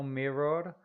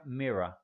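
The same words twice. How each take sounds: First: "mirror" with a rolled Spanish R at the end; wrong Spanish R. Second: "Mirror" said MIH-ruh, final R dropped; correct English. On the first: Teacher showing students the mistake: "mirror" with a rolled final R. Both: Shown as a demonstration. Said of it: "ese último R no se pronuncia".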